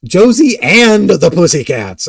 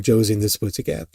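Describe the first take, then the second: First: Loud, slow, higher "Josie AND the Pussycats"; over-careful, loud "Pussycats"; emphatic correction. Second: Quick, muddled "and the Pussycat"; "Pussycat" slurred in a fast slip; flubbed pronunciation. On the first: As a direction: punch "AND" in a deliberate retake. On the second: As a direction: trip quickly over "Pussycat". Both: Real, not acted. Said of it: "all these really bad takes".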